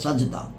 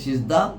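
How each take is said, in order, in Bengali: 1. প্রথম স্বরধ্বনিটি 'a' ধ্বনি। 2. প্রথম স্বরধ্বনিটি 'i' ধ্বনি। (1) "সেটাই এখানে বলা হয়েছে" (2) "আমরা সাধারণত উচ্চারণ করি"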